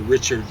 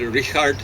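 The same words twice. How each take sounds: First: The first name is said the English way. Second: The first name is said the German way. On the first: The speaker calls it wrong. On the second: The speaker calls it right.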